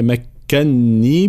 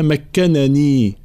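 First: "مكني" with a held, doubled n; doubled nun. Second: "مكنني" as "makkanani", each n sounded; two separate nuns. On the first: Teacher showing the written form, "مكني" with doubled nun. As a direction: hold the "ن" in "مكني" before long i. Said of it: "بتشديد النون". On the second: Teacher showing the original form, "مكنني" with two nuns. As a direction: separate both n's in "مكنني". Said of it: "هي أصلها". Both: Shown as a demonstration.

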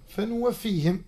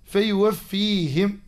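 First: فنوفيهم with a clear N after the opening; read with nun. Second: فيوفيهم said slowly with a clear yaa after the opening; read with yaa. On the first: Teacher showing the other imams' reading, فنوفيهم with an N. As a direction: sound the nun in فنوفيهم, an N in place of Y. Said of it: "بحرف النون". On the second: Teacher showing Hafs's reading, فيوفيهم slowly with a Y sound. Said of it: "بحرف الياء". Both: Shown as a demonstration.

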